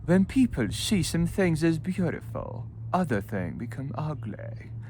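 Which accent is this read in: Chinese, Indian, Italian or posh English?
posh English. It is read in a posh English accent. "Or with posh"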